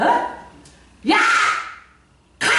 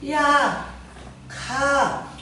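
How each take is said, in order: First: It is shouted loudly and forcefully. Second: It is said softly and weakly. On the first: The fighter attacks with full force. The speaker calls it right. "이러지" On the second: The fighter lacks force against the enemy. The speaker calls it wrong. "야 가 이래?"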